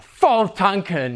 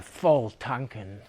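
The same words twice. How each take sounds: First: Slow, drawn-out relish; hammed-up satisfaction, stretched out; mock good cheer. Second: Slow, low, softened sigh of a phrase; hammed-up dejection, trailing down; mock downcast. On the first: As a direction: say it as if all is going great. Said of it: "Things were good". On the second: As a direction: say it as if things went badly. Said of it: "when things were bad".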